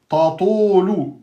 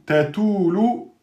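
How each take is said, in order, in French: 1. Le premier t est prononcé lourd et emphatique. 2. Le deuxième t est prononcé léger, pas emphatique. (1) "vous avez emphatisé le premier ta" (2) "vous avez aminci le ta"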